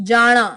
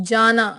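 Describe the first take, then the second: No difference in how they are said.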